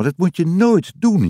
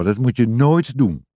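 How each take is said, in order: First: Higher-pitched, emphatic telling-off on "nooit"; motherly warning. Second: Measured telling-off, stress on "nooit"; lightly voiced father, less high-pitched, stressing "nooit"; fatherly warning. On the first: Mama warning Jip after the scare, emphatic telling-off. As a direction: warn firmly, pitched up, leaning on "nooit". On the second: Papa hearing about the bead, measured telling-off. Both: A narrator's reading.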